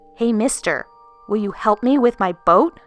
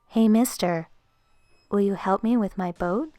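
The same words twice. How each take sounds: First: The question is asked in a forceful tone. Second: The question is asked in a mild tone.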